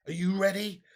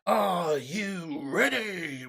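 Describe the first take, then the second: First: Said in the usual way. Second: Very slow ring-announcer stretch; slow, drawn-out announcer hype; drawn-out hype call. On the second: Shown as a demonstration. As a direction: stretch every word like a fight announcer. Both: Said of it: "are we ready?".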